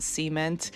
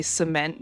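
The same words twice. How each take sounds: First: "cement" as SEE-ment; cement stressed on first syllable. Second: "cement" as suh-MENT; cement stressed on second syllable. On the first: Telling Karma the unusual way, "cement" as SEE-ment. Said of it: "pronounce it as cement". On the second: Telling Karma the Pittsburgh way, "cement" as suh-MENT. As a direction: say "cement" with a reduced first vowel, suh-MENT. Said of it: "you say cement, not cement". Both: Shown as a demonstration.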